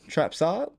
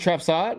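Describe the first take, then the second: First: The name is said slowly and carefully. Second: The name is said quickly and run together.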